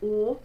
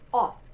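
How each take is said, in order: First: The vowel is closed, with lips rounded tight. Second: The vowel is open, with the mouth wider. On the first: "we have the closed one" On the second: "If you open that up"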